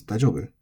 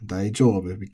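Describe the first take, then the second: First: Daijoubu with a short jo; reduced long vowel. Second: Daijoubu with a long jou; full long vowel. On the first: Teacher showing what it becomes, short-voweled daijoubu. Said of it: "it becomes daijoubu". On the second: Teacher contrasting with the reduced form, long-voweled daijoubu. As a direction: hold the ou in daijoubu. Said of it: "Instead of daijoubu". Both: Shown as a demonstration.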